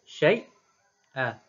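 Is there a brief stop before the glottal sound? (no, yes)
yes. A brief silent stop comes before the glottal catch. "Khalaf baca dengan saktah saja"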